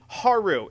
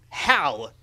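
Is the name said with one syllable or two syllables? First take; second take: two; one. First: The name is said as two syllables. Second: The name is said as one syllable. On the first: The speaker calls it right. "It's Haru, people" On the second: The speaker calls it wrong. "I mean"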